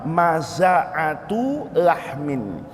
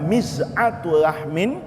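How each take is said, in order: First: The first word starts with a 'ma' sound. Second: The first word starts with a 'mi' sound. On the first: "kemudian dibaca" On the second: "kemudian dibaca"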